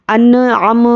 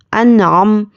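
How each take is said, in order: First: انعم with echoing bounce after n and m; mistaken qalqala. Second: Said in the usual way. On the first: Shown as a demonstration. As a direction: add a tiny vowel after each closed consonant in انعم. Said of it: "اس طرح سے خلخلہ بالکل بھی نہیں ہونا ہے". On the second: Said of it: "خلخلہ بالکل بھی نہیں ہونا ہے".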